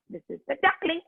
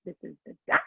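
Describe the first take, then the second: First: Put-on higher pitch for the baby duck; high little duckling. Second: Low grown-up duck. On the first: Teacher showing children the baby duck, raised voice. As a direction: lift "duckling" up high and small. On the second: Teacher showing children the adult duck, lowered voice. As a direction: lower pitch for the big duck. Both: Shown as a demonstration.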